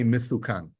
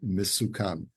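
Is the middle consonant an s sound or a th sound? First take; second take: th; s. First: The middle consonant is a th sound. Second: The middle consonant is an s sound. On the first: The words are called sweet. The speaker calls it right. "there's one word that I read like a Yemenite" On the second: The words are called dangerous. The speaker calls it wrong.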